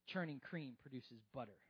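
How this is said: It is said in a blunt put-on character voice. It is stated flatly as an obvious fact. "I could just hear Dwight K. Schrute saying"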